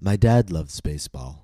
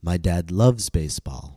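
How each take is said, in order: First: The stress falls on the word dad. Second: The stress falls on the word loves. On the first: It is this person, not another relative. "my focus word becomes dad. I'm showing contrast" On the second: He does more than just like it. "I'm stressing the word loves"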